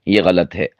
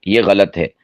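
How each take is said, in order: Both takes have the same delivery.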